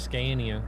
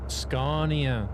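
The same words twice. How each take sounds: First: The main vowel is an eh sound. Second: The main vowel is an oh sound. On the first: The speaker calls it wrong. "everybody says Scania" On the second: The speaker calls it right. "it's an oh, not an eh"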